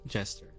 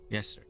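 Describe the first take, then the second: First: The word begins with a J sound. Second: The word begins with a Y sound. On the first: The speaker calls it wrong. "I guess this is pronounced Jester?" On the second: The speaker calls it right. "I think Yester will is a better pronunciation"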